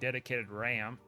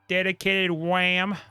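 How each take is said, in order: First: The last word starts with an R sound. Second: The last word starts with a W sound. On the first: The speaker calls it right. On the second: The speaker calls it wrong.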